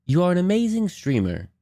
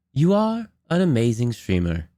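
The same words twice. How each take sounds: First: Said in the usual way. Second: "You are", a beat, then "an amazing streamer"; longer pause. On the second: Shown as a demonstration. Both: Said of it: "how long of a pause between".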